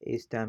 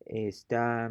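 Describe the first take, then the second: First: Esta as ES-ta, short ending; stress on first syllable. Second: Esta as es-TAA, slow, long ending; stress on final A. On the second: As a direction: draw out the last A of esta. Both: Shown as a demonstration. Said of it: "it's pronounced differently".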